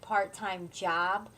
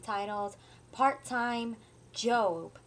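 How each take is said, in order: First: The last word is said as ordinary 'job'. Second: The last word is said as the Bible name. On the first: It refers to paid work. "it's going to seem like part time job" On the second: It refers to the book in the Bible. "it's not that I'm saying it incorrectly"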